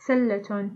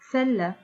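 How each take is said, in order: First: The word ends with a T and vowel. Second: The word ends with a soft H sound. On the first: The word is joined to a following word. "we pronounce the ta al-marbuta as t" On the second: The word stands alone or ends the phrase. "we pronounce their ta al-marbuta as ha"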